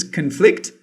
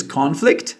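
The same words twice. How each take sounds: First: Conflict said con-FLICT, stress on the second syllable; weak first syllable, conflict as con-FLICT; verb conflict. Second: Conflict said CON-flict, stress on the first syllable; noun conflict. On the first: Teacher contrasting the two forms, verb stressed con-FLICT. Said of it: "This is the, uh, verb form". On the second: Teacher contrasting the two forms, noun stressed CON-flict. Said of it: "This is the noun form". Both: Shown as a demonstration.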